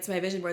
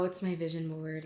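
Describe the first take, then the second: First: It is said in a confident, self-assured tone. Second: It is said in an embarrassed, hesitant tone. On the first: The speaker is proud of their goals. The speaker calls it right. "if you say it with confidence" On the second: The speaker wants to hide their goals. The speaker calls it wrong. "Like I don't want people to know that I have goals"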